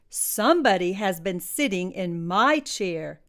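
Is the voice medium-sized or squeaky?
medium-sized. It is said in a medium-sized voice.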